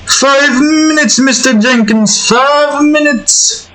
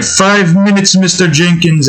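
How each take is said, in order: First: Much higher, slow whiny pleading; groggy sleeper. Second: A lighter, higher pleading echo; groggy sleeper. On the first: Shown as a demonstration. Sleeper begging the alarm for more time, high slow whine. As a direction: beg for a snooze like a half-asleep kid. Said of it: "that voice is so". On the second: Retold or imitated. Recalling the alarm-clock plea, lightly higher. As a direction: lightly replay the snooze plea. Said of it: "It's like".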